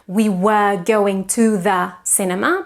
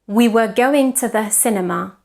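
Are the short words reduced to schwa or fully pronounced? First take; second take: full; reduced. First: The short words have full vowels. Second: The short words are reduced to schwa. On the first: The speaker calls it wrong. "So it's not" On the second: The speaker calls it right. "schwa also appears in short words"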